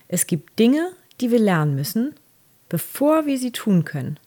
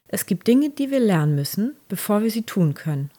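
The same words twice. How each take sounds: First: It is spoken a bit more slowly. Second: It is spoken at a normal, quicker pace.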